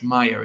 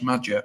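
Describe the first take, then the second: First: The J is said the Spanish way, not English. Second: The J is said as an English J sound. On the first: "as if he was like Spanish" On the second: "Do you pronounce the J in Josh Maja"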